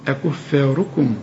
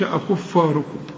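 First: The F sound is light, not emphatic. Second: The F sound is heavy and emphatic. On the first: The speaker calls it right. "والراء هي بس المفخمة" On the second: The speaker calls it wrong. "ما قلش أكفاركم"

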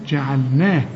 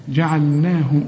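No difference in how they are said.

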